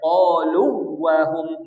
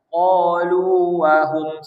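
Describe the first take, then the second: First: The two waw sounds are merged into one. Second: Each letter is pronounced clearly without merging. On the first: The speaker calls it wrong. "Tak boleh qalu wahum. Tak boleh idgham" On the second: The speaker calls it right. "tapi izhar"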